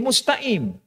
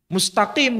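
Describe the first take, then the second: First: The middle consonant is a glottal stop. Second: The middle consonant is a deep q sound. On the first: "Orang Mesir huruf qaf menjadi huruf alif" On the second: "huruf qaf"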